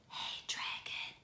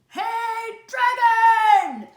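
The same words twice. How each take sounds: First: It is whispered very softly. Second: It is shouted very loudly.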